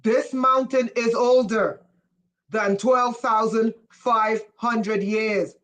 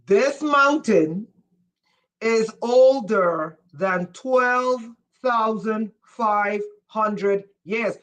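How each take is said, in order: First: Said in the usual way. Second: Every word of the number spaced out slowly; slow emphatic repeat. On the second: Shown as a demonstration. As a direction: spell it out slowly like to a slow class. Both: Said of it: "let me say it in French".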